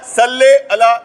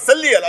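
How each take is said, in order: First: The vowel after 'sall' is an 'a' sound. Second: The vowel after 'sall' is an 'i' sound. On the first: "एक ज़बर के साथ" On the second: "एक ज़ेर के साथ बोला जाता है"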